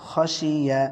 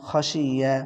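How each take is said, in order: Both takes have the same delivery.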